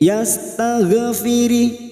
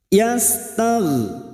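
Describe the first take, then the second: First: The gh sound bounces with an added vowel. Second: The gh sound is held smoothly without a bounce. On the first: The speaker calls it wrong. "Jangan dibaca yastaghfiri, ya, tidak boleh dipantulkan" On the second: The speaker calls it right. "Bunyinya seperti yastagh"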